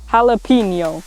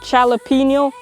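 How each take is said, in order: First: The last syllable is a palatal 'nyo'. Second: The last syllable is a plain 'no'. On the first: The speaker calls it right. "the correction for how to pronounce it is" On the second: The speaker calls it wrong. "I was saying jalapeno"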